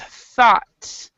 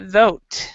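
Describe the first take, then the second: First: The vowel sounds like 'ah'. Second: The vowel sounds like 'oh'. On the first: The speaker calls it right. "This is ah, so it's thought" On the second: The speaker calls it wrong. "this sound is not thote"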